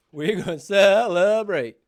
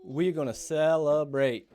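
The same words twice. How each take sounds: First: Cheering. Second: Said in the usual way. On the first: Real, not acted. Dad repeats it bigger.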